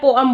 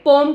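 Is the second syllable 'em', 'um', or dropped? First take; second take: um; dropped. First: Two syllables, the second with an 'uh' vowel. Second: One syllable, the second vowel is dropped. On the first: The speaker calls it right. "इससे भी ज्यादा apt होती है पोअम" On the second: The speaker calls it wrong. "पोम कुछ नहीं होता"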